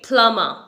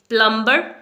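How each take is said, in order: First: The b sound is silent. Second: The b sound is pronounced. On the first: The speaker calls it right. "बी यहाँ पर silent है।" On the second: The speaker calls it wrong. "ये wrong pronunciation है"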